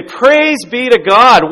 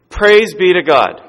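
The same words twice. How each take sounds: First: Very slow, high, loud praising cry; cheering yell. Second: Louder, slow praising call; retold praise shout. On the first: Retold or imitated. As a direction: stretch out the cheer in triumph. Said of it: "the kid starts to laugh and cheer and yell". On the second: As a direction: call the praise out slowly and loud. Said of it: "he starts screaming out loud".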